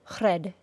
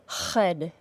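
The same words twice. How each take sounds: First: The R is a quick single tap. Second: The R has rough friction from the throat. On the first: "we do not tap the R sound like this" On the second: "if the back of your tongue is causing friction and a substantial vibration, as a fricative would"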